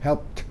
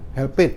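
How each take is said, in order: First: The ending is a bare consonant, one syllable. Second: The ending is an extra syllable, like help-id. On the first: The speaker calls it right. "ed-nya enggak dibaca ya" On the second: The speaker calls it wrong. "help it, enggak"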